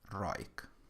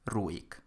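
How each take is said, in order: First: The vowels merge into an oi diphthong. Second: The u and i are separate vowels. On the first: The speaker calls it wrong. "and not roik" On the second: The speaker calls it right. "So you pronounce it as ruik"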